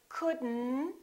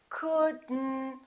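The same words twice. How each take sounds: Both takes have the same delivery.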